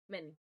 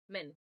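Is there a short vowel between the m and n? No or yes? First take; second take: no; no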